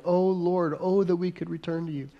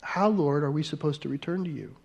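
First: A hint of desperate yearning. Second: Curious questioning tone, trailing softer and faster; inquisitive. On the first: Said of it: "make it even desperate". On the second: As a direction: ask it like you truly want to know. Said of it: "say it like an inquisitive". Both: Shown as a demonstration.

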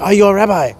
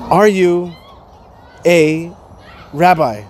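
First: Light imitation of an Asian accent; lightly mimicked Asian-accented question. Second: Slow, halting question, word by word; spaced-out, careful question; quoted woman's question. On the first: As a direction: retell her question in a mild Asian accent. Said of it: "she said it to me in an Asian accent". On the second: Retold or imitated. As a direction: ask it haltingly with long pauses between words. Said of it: "a woman comes up to me and she says to me".

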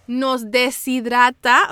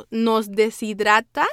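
First: "deshidrata" said slowly, syllable by syllable; "deshidrata" drawn out deliberately to get it right; careful pronunciation. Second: Said in the usual way. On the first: Real, not acted. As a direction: take "deshidrata" slowly and carefully, as a hard word. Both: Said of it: "siempre me cuesta decir esa palabra".

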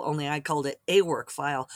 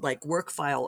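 First: "a" said as the letter name "ay" before "work file". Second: Said in the usual way. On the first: Shown as a demonstration.

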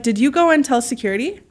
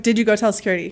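First: Polite question, lifting at the end; retold question in a nice, kind voice. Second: All-business voice. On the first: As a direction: ask it nicely, with a rising end. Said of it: "So you're saying in a nice voice". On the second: Retold or imitated. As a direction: drop the niceness and mean business. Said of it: "then my voice, I'm like".

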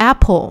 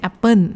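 First: "apple" said the native English way, ending in a dark l; English-accented "apple", not the Thai "แอปเปิ้น"; native English pronunciation. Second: "apple" said the Thai way, as "แอปเปิ้น"; Thai-accented "apple", ending "-pern"; Thai pronunciation. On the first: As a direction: say "apple" like a native speaker, with no final n. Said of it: "ออกเสียงว่า". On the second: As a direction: say "apple" with a Thai final n in place of l. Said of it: "ไม่ใช่". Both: Shown as a demonstration.

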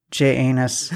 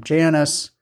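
First: "J Anus" broken into letter J and anus; pause, then split it as "J Anus"; joke pronunciation fix. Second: "Janus" as one word, like Janice; usual name pronunciation. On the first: Shown as a demonstration. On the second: Real, not acted. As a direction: say "Janus" as JAN-us, unbroken. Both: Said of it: "I'm gonna fix it for you".

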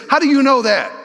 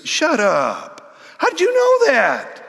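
First: Stunned question. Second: Shocked disbelief. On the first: Retold or imitated. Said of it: "what she's really saying is". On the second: Acted. Woman stunned by Jesus' knowledge.

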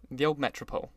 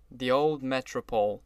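First: Said in the usual way. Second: A touch of gloom, brooding over it; mildly gloomy, lingering on old. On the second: A narrator's reading. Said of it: "brooded Mister Wolsheim gloomily".

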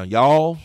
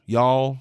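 First: Playfully put-on Southern "Y'all"; Southern accent. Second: Said in the usual way. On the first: Superintendent playing up home roots for families, Southern accent. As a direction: say "Y'all" with a little extra Southern lean. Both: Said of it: "I'll put on my Southern voice now".

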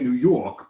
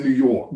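First: Broad New York "New York"; New York accent. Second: Said in the usual way. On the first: Shown as a demonstration. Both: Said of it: "I don't say New York".

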